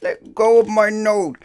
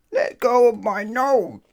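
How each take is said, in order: First: Pained cry. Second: High, loud, slow cry through a pinched nose; pained cry. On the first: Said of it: "cried Mister Mischief again". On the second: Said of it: "cried Mister Mischief". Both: Acted. Mister Mischief with his nose held by the wizard, pained cry. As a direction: yelp while your nose is held.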